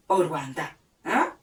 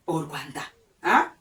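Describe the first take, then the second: No difference in how they are said.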